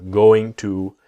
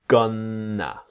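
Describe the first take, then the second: First: Both words are said fully and separately. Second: It is squeezed into one reduced word. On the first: "going to comes gonna" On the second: "the tongue touching here on the top"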